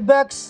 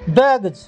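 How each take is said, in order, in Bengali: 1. শব্দটি s ধ্বনি দিয়ে শেষ হয়। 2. শব্দটি z ধ্বনি দিয়ে শেষ হয়। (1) "ସ ଉଚ୍ଚାରଣ କରି କହିବେ" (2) "ଏଇଠି ସବୁଠି ଜ ଉଚ୍ଚାରଣ ହୁଏ"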